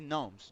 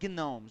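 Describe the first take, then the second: First: The initial g is silent; it starts with n. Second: The initial g is sounded before the n. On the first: The speaker calls it right. "We say gnomes. Just gnomes" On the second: The speaker calls it wrong. "we do not say gnomes"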